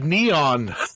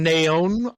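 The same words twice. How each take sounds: First: The name is pronounced the American way. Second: The name is pronounced the Spanish way. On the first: "most American pronunciation" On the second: "Espanol Spanish pronunciation"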